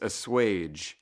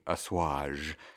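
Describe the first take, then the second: First: The word has a plain English pronunciation. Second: The word has a French-style pronunciation. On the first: The word is treated as ordinary English. "But it's assuage" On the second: The word is treated as coming from French. "the proper pronunciation would be assuage because that's how they would say something like that in France"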